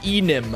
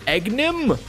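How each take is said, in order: First: The G sound is silent in the middle. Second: The G sound is pronounced in the middle.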